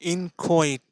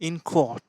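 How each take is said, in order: First: The final syllable ends in an 'ay' sound. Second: The final syllable has a plain, short vowel. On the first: "আরেকটি উচ্চারণ valid" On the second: "আমি যে উচ্চারণটা করছি সেটা এটা"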